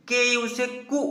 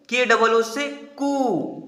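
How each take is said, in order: First: कु with a short u. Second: कु drawn out into a long oo, slow; long kuu. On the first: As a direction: keep the u in कु brief. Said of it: "इसका छोटा उच्चारण होगा". (छोटा उ वाला कु, छोटा उच्चारण) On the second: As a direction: stretch the oo in कु long. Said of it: "इसका बड़ा उच्चारण होगा". (बड़ी ऊ वाला कू, लंबा खींचकर) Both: Shown as a demonstration.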